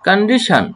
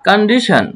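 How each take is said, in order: The two takes are said the same way.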